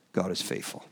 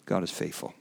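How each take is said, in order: First: Near-whispered, fighting back tears; choked-up whisper. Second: Quiet, moved repeat. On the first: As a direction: breathe it softly, moved almost to tears. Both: Real, not acted. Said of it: "careful I don't start crying".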